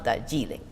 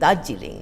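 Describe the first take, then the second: First: The stress is on the penultimate syllable. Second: The stress is on the first syllable. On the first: The speaker calls it wrong. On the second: The speaker calls it right. "the stress is on the first syllable"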